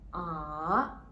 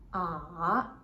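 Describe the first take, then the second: First: The pitch dips low, then rises high. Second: The pitch dips low, then rises high.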